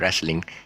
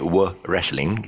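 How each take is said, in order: First: No W sound is said at the start. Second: A W sound is said at the start. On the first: The speaker calls it right. "so you just say wrestling, cut off the W" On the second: The speaker calls it wrong. "you don't say were wrestling"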